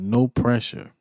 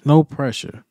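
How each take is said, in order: First: Said in the usual way. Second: "No pressure" punched louder, NO hit hard; louder emphatic repeat. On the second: Real, not acted. Eagles fan ranting about the pass rush, punching "No pressure" louder. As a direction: slam the word "No" in "No pressure".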